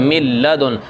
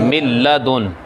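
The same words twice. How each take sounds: Both takes have the same delivery.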